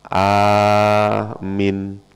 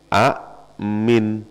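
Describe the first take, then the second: First: The first vowel is drawn out long. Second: The first vowel is short and cut off. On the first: This is the form actually used. The speaker calls it right. "Yang kepake a-nya dipanjangkan" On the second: This form is not used. The speaker calls it wrong. "A ini nggak kepake"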